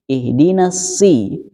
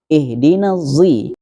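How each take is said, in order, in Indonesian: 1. Kata ini diawali bunyi s biasa. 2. Kata ini diawali bunyi z. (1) "memakai huruf sin" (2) "memakai zo"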